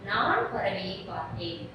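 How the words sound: The first word carries the main stress. It says who saw the bird. "பறவையை பார்த்தது யார் அப்படின்னு கேட்டா"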